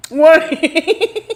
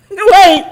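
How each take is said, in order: First: Laughing wait. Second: Sudden wait. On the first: Laughing repeat. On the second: Sudden stop, loud. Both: Real, not acted.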